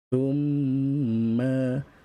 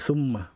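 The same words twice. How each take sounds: First: The m is nasalized and held for two beats. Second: The m is short without a held nasal sound. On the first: The speaker calls it right. "Kita baca dengan dengung. Tekan dua harakat" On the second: The speaker calls it wrong. "Tak boleh baca summa"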